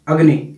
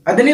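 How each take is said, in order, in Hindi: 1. यह शब्द साफ़ बोला गया है, तुतलाहट के बिना। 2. यह शब्द बच्चों जैसी तुतलाहट के साथ बोला गया है। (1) "जैसे मैं अग्नि बोलता हूं" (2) "जैसे सपोज कि मैं तोतला हूं"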